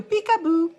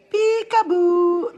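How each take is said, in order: First: High, quick, teasing "Peekaboo"; playful peekaboo. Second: High "Peekaboo", stretched slow, rising at the end; drawn-out peekaboo. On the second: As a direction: sing out a slow, teasing "Peekaboo" that rises. Playfully teasing the viewers, drawn out. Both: Pretend.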